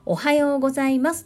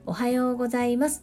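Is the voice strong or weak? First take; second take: strong; weak. First: It is said strongly, with force. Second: It is said weakly, without force.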